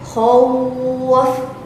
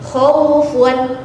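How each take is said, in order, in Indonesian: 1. Kata ini berakhir pada konsonan mati. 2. Kata ini berakhir dengan bunyi -un.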